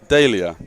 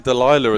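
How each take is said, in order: First: The name is said the local way, like Dahlia. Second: The name is said the British way, like Delilah. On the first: This is how the name is really said. The speaker calls it right. "but it's Dahlia, correct?" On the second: This is how people in the UK say the name. The speaker calls it wrong. "we say Delilah in the U K"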